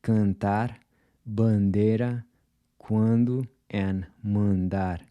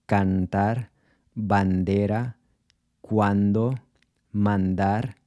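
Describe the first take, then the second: First: Cantar, bandera, cuando, mandar with nasal vowels and no touched N; cantar, bandera, cuando, mandar with Brazilian nasal vowels; Portuguese nasal. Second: Cantar, bandera, cuando, mandar with a full Spanish N; cantar, bandera, cuando, mandar with Spanish vowels and N; Spanish pronunciation. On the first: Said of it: "instead of". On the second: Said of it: "switch from Spanish, tempted to say". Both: Shown as a demonstration.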